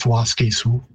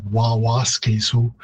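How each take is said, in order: First: "Waske Sioux" with one wa at the start; shortened form. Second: "Wawaske Sioux" with the opening wa repeated; full Cree form. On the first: Linguist explaining the lost syllable, shortened form sounded out. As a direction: say "Waske Sioux" slowly as WAS-kay-soo. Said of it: "it's just". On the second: Linguist explaining the lost syllable, full form sounded out. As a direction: say "Wawaske Sioux" as wa-WAS-kay-soo. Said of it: "syllable at the beginning has been lost". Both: Shown as a demonstration.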